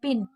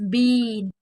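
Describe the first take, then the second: First: The vowel is short and clipped. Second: The vowel is long and drawn out. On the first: The speaker calls it wrong. "तो वो गलत sound कहलाएगा" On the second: The speaker calls it right. "बड़ी मात्राएं होती है उसे हमेशा धीरे से बोलना चाहिए, यानी कि खींच के"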